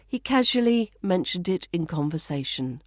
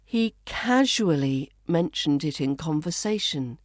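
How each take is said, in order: First: Connected reading with "casually" as KAZH-uh-lee; "casually" shortened, flowing straight on; reduced pronunciation. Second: Careful, spaced reading with "casually" as KAZH-oo-uh-lee; "casually" carefully said in full; full pronunciation. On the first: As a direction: run it together, "casually" in three syllables. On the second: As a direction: give "casually" four syllables, set apart by pauses. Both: Shown as a demonstration. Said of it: "we reduce this to".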